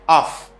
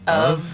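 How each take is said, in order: First: The word ends with an f sound. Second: The word ends with a v sound. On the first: The speaker calls it wrong. "A lot of people think this is off, off, like this" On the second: The speaker calls it right. "We have V sound in this word"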